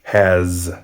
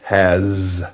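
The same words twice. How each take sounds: First: The word ends with a z sound. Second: The word ends with a z sound.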